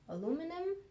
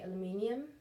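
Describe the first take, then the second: First: The word is said the American way. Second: The word is said the speaker's own way. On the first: "I think it's the American way of saying it" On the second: "I would say aluminium"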